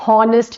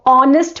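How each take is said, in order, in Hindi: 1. इस शब्द की शुरुआत h की आवाज़ से होती है। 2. इस शब्द की शुरुआत vowel की आवाज़ से होती है। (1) "honest नहीं बोलते" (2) "तो honest बोलते हैं"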